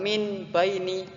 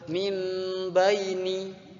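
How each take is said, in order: First: The first word ends with an n sound. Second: The first word ends with an m sound. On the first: The speaker calls it wrong. "bukan min baini, salah" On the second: The speaker calls it right. "yang betul mim baini"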